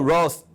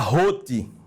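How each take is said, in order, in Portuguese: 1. O nome é falado com pronúncia americana. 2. O nome é falado com pronúncia alemã. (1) "quando eu falo Ross" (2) "porque é a pronúncia do nome em alemão"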